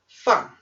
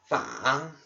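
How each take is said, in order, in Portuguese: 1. É dito com o quarto tom. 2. É dito com o terceiro tom. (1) "quarto tom" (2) "Terceiro tom"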